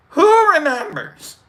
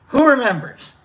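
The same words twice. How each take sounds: First: High, loud, slow "who remembers"; exaggerated question. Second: Raised, falling "who remembers". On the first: Host presses viewers at sign-off, "who remembers" high, loud and slow. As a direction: stretch "who remembers" up high, falling at the end. Repeats question higher, louder, slower. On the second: Acted. Host prompts viewers at sign-off, raised "who remembers" falling away. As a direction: lift "who remembers", then let it fall. Repeated sign-off question, first take.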